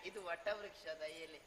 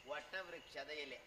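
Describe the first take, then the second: First: Words run together; quick, casual patter; rattled off. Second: Slower, lower, word by word; measured, careful repeat; slow clarification. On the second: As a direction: spell out ವಟವೃಕ್ಷದ slowly for the listener. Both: Acted. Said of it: "ಅದೆಂತ ನಿನ್ನ ತಟಪಟ".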